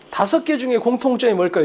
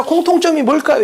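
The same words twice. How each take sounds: First: 다섯 개 중에 set out first as the frame of the question; focus on 다섯 개 중에. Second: Said in the usual way. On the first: Shown as a demonstration. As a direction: read it as a choice, weight on 다섯 개 중에. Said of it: "이렇게 읽어야 돼". ('다섯 개 중에'에 초점을 두고 읽기) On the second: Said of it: "이게 아니야".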